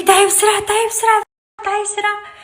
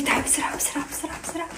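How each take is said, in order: First: High, pushy mock call to hurry up; squeaky imitation of him rushing her; imitating her impatient husband. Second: Hushed, breathy whisper of his hurry-up call; whispered imitation. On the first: (تقليد صوت زوجها المستعجل بنبرة عالية) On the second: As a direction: whisper it like a secret complaint. (همس بتقليد زوجها وهو يستعجلها) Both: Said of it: "عم يقول لي".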